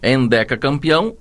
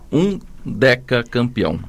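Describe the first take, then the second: First: The word begins with an E sound. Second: The word begins with a U sound. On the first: "com como H" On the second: "com U"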